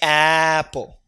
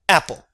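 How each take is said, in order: First: The first vowel is drawn out long. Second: The first vowel is quick and short. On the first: The speaker calls it wrong. "You don't say apple" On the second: The speaker calls it right. "that sound is very short"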